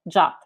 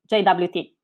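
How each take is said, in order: First: It is said as one short word. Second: It is said as three separate letters. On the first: "the R F C suggests the same pronunciation as the English word J A T" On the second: "I will pronounce it as J W T"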